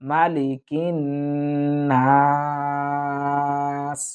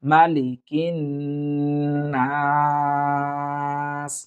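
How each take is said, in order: First: The first vowel is kept short and quick. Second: The same.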